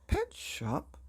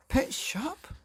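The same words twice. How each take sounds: First: High, voiced "Pet shop?" in disbelief; father repeating it in disbelief; incredulous repeat. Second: Breathless high whisper of disbelief; a father whispering in shock; stunned whisper. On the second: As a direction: barely get the words out. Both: A narrator's reading.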